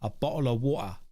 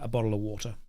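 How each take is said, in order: First: It is said in a marked British accent. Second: It is said in a plain, unmarked accent.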